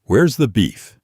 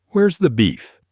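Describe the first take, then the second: First: A touch of irritation in the question; annoyed voice. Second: Higher, indignant fed-up grandmother; annoyed old lady. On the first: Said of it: "in the most annoyed voice ever recorded". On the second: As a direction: accuse like a grandma with no time for nonsense. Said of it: "with a thick Chicago accent and a face that looked like it had seen too much nonsense". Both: Retold or imitated.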